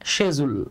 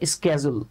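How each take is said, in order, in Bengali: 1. এটা 'sh' দিয়ে শুরু হয় এবং 'j' এর মতো উচ্চারণ আছে। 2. এটা 'sk' দিয়ে শুরু হয় এবং 'j' এর মতো উচ্চারণ আছে। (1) "এটার ব্রিটিশ উচ্চারণ হচ্ছে শেজুল" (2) "আমেরিকান যে প্রনাউন্সিয়েশনটা সেটা হচ্ছে স্কেজুল"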